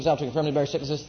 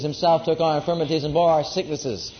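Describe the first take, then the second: First: It is said fast. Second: It is said slowly.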